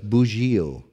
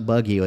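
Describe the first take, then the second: First: The name is said with a local pronunciation. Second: The name is said with an anglicized pronunciation. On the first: This is how it is said locally. The speaker calls it right. "it's Bugio" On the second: This is how newsletter readers guess it. The speaker calls it wrong. "It's not Buggio"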